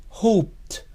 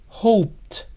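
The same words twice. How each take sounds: Both takes have the same delivery.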